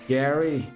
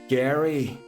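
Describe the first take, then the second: First: It is said in an imitated American accent. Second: The same.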